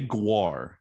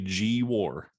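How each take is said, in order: First: The name is said as one syllable. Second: The name is said as two syllables. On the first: The speaker calls it right. "you say Guar" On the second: The speaker calls it wrong. "You don't say G War"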